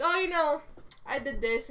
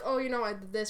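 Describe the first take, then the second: First: Higher, louder boastful sister; twin sister's voice. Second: Said in the usual way. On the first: Pretend. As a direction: toss it off proudly as the sister. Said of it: "and she's like". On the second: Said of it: "And he's like".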